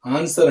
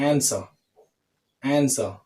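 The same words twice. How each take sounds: First: ఆన్సర్ with a full open a and rolled r; ఆన్సర్ as many Telugu speakers say it; common wrong way. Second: ఆన్సర్ with a flat front a, no r; ఆన్సర్ clipped, American style; correct demo. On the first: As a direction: say ఆన్సర్ the usual Indian way. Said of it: "అంటూ ఉంటాం మనం చాలామంది". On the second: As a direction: say ఆన్సర్ with the a of apple. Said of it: "ఆన్సర్ కాదు". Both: Shown as a demonstration.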